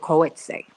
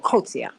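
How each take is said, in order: First: The name is said with an anglicized pronunciation. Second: The name is said with a South African pronunciation. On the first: The speaker calls it wrong. "I hope I'm pronouncing your name correctly. I don't think that I am" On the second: The speaker calls it right. "That's how they would pronounce it there"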